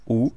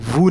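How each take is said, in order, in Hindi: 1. शब्द सीधे स्वर से शुरू होता है। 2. शब्द w की आवाज़ से शुरू होता है।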